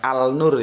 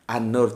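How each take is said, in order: First: The article keeps a clear l sound. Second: The article blends into the following n sound. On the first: The speaker calls it wrong. "bukan Al-Nur ya" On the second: The speaker calls it right. "Kalau Nur dia menjadi An-Nur"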